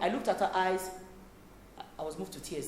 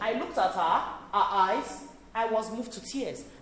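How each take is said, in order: First: It is said flatly, without emotion. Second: It is said with strong emotion.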